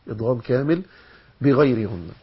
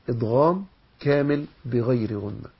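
The two takes are said the same way.

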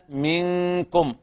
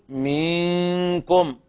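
First: The first vowel is kept short. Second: The first vowel is stretched into a long i. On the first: The speaker calls it right. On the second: The speaker calls it wrong.

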